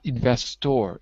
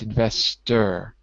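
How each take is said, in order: First: The last syllable is a full 'or' sound. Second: The last syllable is a reduced 'er' sound. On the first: The speaker calls it wrong. "It looks like or, but it's not investor" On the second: The speaker calls it right. "It's investor"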